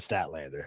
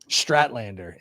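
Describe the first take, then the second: First: No R sound follows the opening S and T. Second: An R sound follows the opening S and T. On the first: The name as it should be said. The speaker calls it right. "instead of" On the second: A mistaken version of the name, later kept as a joke. The speaker calls it wrong. "I said Strat"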